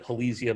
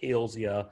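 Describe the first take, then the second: First: The first part does not sound like Hales. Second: The first part sounds like the surname Hales. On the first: The pronunciation is a long-held habit. The speaker calls it wrong. "but I've called it Halesia my whole life" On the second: The pronunciation follows the name the plant honors. The speaker calls it right. "It's named for Stephen Hales, so probably we should call it Halesia"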